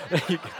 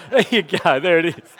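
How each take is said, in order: First: Said in the usual way. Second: Louder, laughing through the words; amused chuckle at his own impression. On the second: Real, not acted. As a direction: giggle it out after the joke.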